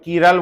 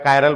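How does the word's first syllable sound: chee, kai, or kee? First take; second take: kee; kai. First: The word starts with a 'kee' sound. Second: The word starts with a 'kai' sound. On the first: "कई लोग कीरल बोलते हैं" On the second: "मेरे को कायरल अच्छा लग रहा है तो मैं कायरल बोलूंगा"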